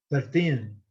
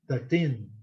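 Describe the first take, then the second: The two takes are said the same way.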